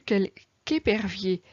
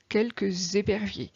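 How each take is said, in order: First: No z sound links the two words. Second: A z sound links the two words. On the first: There is only one hawk. The speaker calls it right. "j'ai entendu quelqu'épervier" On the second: There are several hawks. The speaker calls it wrong. "et non pas"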